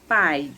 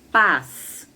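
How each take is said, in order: First: The vowel glides into an 'ee' before the end. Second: A plain vowel with no glide before the end. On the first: "com P A I S" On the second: "com Z"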